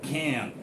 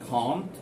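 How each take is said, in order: First: It is said in an American accent. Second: It is said in a British accent. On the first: "American people pronounce it can't" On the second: "British people pronounce it can't"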